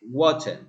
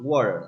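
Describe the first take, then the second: First: The middle T is a clear stop. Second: The middle T is a quick flap. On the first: "clear T" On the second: "the T becomes flap R"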